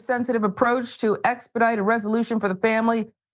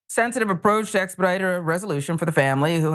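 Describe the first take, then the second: First: It is read in the speaker's normal voice. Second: It is read in a put-on, altered voice.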